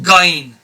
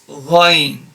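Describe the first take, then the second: First: The first sound is a hard g stop. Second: The first sound is a soft throaty friction. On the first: The speaker calls it wrong. "It's not gain" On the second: The speaker calls it right. "it's ghain"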